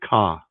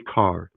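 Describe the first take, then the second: First: The final R sound is dropped entirely. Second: The final R sound is clearly pronounced. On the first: "Some cultures have a soft R" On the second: "They don't say car"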